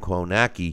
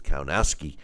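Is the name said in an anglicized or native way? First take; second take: anglicized; native. First: The name is said in an anglicized way. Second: The name is said in its native way.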